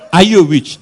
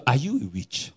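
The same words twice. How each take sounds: First: Louder, higher, demanding shout; loud challenge. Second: Said in the usual way. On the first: Retold or imitated. Idahosa confronting the man, loud and higher. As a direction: confront him with the question.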